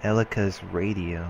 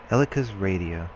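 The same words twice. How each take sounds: The two takes are said the same way.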